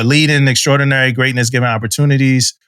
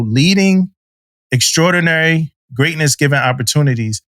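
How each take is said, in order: First: The phrase is said quickly. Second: The phrase is said slowly. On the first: The speaker calls it wrong. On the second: The speaker calls it right.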